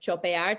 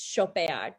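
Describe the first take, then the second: First: The word begins with a ch sound. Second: The word begins with a sh sound. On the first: It would mean to chop. The speaker calls it wrong. "everyone else might see it as chopear, to chop" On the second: It means to shop. The speaker calls it right. "it's chopear, to shop"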